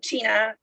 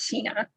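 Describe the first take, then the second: First: The surname is said in its original pronunciation. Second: The surname is said in its Americanized pronunciation. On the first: This is how the name is properly said. "It's correct way to say it" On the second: This is how people in America say the name. "but in America it's Sina"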